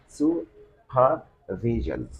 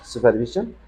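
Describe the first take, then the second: First: The -sion ending is said long. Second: The -sion ending is said short. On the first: The speaker calls it right. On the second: The speaker calls it wrong.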